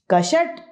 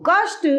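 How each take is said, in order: First: कषट said as क-ष-ट with a full vowel between; wrong form said aloud. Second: कष्ट with the half श cluster, ka-shta; correct form. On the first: Teacher says the wrong spelling कषट as ka-sha-ta, high. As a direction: pronounce कषट as three open syllables, ka-sha-ta. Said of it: "कषट गलत है". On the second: Teacher gives the right form कष्ट, kasht, clearly. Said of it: "सही है". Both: Shown as a demonstration.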